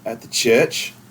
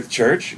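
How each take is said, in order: First: The word is said in an Australian accent. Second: The word is said in the speaker's plain accent.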